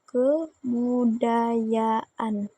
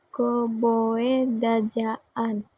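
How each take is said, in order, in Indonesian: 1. Konsonan di tengah dibaca bunyi y. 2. Konsonan di tengah dibaca bunyi j. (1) "dibaca dengan kebudayaan" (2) "Kalau kita baca secara harfiah"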